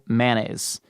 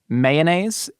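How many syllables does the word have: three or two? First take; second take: two; three. First: The word is said with two syllables. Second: The word is said with three syllables. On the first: "a two syllable mayonnaise" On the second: "a three syllable mayonnaise"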